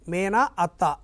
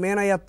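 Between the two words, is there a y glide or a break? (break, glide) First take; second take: break; glide. First: The two words stay separate, no y sound. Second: A y sound links the two words. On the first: The speaker calls it wrong. "మేన అత్త అని చదవం" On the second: The speaker calls it right. "మేనయత్త అంటే అందులో కూడా యా వచ్చి చేరింది"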